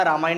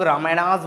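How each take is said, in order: First: रामायण said cleanly, ending on ण with no s; correct Hindi name. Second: रामायणास with an English plural s sound at the end; wrong anglicised name. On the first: Teacher showing students the right name, clean Hindi ending. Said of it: "रामायण ही बोलना". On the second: Teacher showing students the wrong way, mock anglicised ending. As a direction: say रामायणास as careless English speakers do, adding -as. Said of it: "इसको कुछ लोग रामायणास बोलते हैं". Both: Shown as a demonstration.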